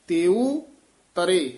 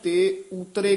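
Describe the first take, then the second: First: The break falls after 'teu', then 'tare'. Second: The break falls after 'te', joining 'utre'. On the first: The speaker calls it right. "ਤੇਉ ਤਰੇ ਨਖੇਰ ਕੇ ਪੜਨਾ ਹੈ" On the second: The speaker calls it wrong. "ਇਹ ਵੀ ਆਮ ਨਾ ਤੇ ਉਤਰੇ ਕਹਿ ਜਾਂਦੇ ਹਨ"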